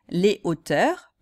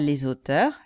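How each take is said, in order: First: Les is kept separate, with no z sound. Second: Les links to the next word with a z sound. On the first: It refers to heights. The speaker calls it right. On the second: It refers to people who write books. The speaker calls it wrong.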